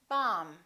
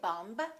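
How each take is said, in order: First: The final B is not pronounced. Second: The final B is pronounced. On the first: The speaker calls it right. "the B is silent in the word bomb" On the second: The speaker calls it wrong. "We don't say"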